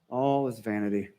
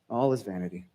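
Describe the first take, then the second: First: It is said calmly and thoughtfully. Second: The same.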